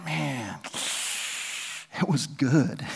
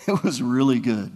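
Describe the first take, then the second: First: A hushed, dreamy sigh of wonder; wistful awe. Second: Said in the usual way. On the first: Retold or imitated. Paul marvelling to his readers about heaven, in hushed awe. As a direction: savour the memory, half lost in it. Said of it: "He's like".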